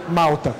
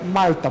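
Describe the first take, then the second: First: The L before the T sounds like U. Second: The L before the T is a clear L. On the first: The speaker calls it wrong. "não Malta, como a gente está acostumado a falar" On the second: The speaker calls it right. "eu sempre pronuncio o L como L e não como U"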